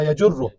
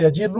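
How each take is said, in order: First: یجر as ya-jur-ru, with u after j; u-vowel option. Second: یجر as ya-jir-ru, with i after j; i-vowel option. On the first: Teacher offers students the second option, یجر said ya-jurru. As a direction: say یجر slowly with a short u and doubled r. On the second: Teacher offers students the first option, یجر said ya-jirru. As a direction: say یجر slowly with a short i and doubled r. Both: Shown as a demonstration. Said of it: "مضارعش باید چی تو باشه".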